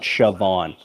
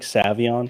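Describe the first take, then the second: First: The name begins with an sh sound. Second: The name begins with a plain s sound. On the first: The speaker calls it wrong. "It's not Shavon" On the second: The speaker calls it right. "It's like Savion"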